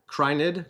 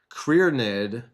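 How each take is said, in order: First: The first part sounds like "cry". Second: The first part sounds like "career". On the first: The speaker calls it right. "Crynid probably" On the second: The speaker calls it wrong. "Why was I saying Career?"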